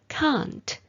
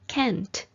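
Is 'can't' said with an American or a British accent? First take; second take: British; American. First: It is said with a British accent. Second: It is said with an American accent. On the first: "it is pronounced as can't in most varieties of British English" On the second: "is pronounced as can't in American English"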